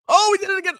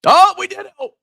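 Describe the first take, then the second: First: High, thrilled cry; excited. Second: High squeal of joy; excited squeal. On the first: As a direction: squeal again at the milestone. Bitcoin crosses seventy K again. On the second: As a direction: squeal it like your coin just mooned. Bitcoin crosses seventy K. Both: Real, not acted.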